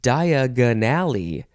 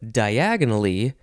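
First: The stress makes it sound like Diagon Alley. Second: The word has its usual syllable stress. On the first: "I changed how to emphasize the word, just how you emphasize the syllables" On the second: "instead of diagonally"

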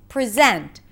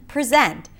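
Both takes have the same delivery.

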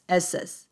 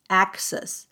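First: The word is said without a k sound. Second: The word is said with a k sound. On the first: The speaker calls it wrong. "而不是ss ss" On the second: The speaker calls it right. "有没有发出k 的这个音，因为是access access"

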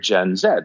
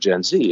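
First: The letter is said the British way, zed. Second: The letter is said the American way, zee.

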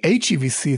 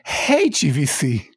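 First: The H is said the American way. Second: The H is said the British way. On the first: "They don't say HEVC" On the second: "they say HEVC"

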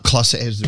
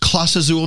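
First: The first word has one syllable, ending in s. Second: The first word has two syllables, ending in a vowel. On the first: The speaker calls it wrong. "not Clase Azul" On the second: The speaker calls it right. "Isn't it pronounced Clase Azul"

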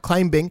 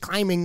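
First: The B in the word is pronounced. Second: The B in the word is silent. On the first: The speaker calls it wrong. "not climbing" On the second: The speaker calls it right. "the cashier who tells me it's climbing"

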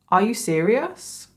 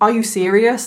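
First: It is said in a calm, not angry tone. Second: It is said in an angry tone.

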